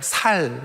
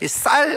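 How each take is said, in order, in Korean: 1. 이 단어는 예사 's'로 시작해요. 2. 이 단어는 된소리 's'로 시작해요. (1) "쌀 안 되니까 살" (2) "쌀 안 되니까"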